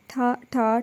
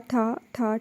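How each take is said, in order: First: Softly voiced gunshot bangs; spoken imitation of gunfire, soft; gunshot sounds. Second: Softer, distant-sounding gunshot bangs; gunshot sounds. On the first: Narrator voicing the gunshots at Hamdani, soft bangs. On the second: Narrator voicing the last shots fading, soft distant bangs. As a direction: fade the shots as if further off. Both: A narrator's reading. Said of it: "ٹھا ٹھا کی آواز".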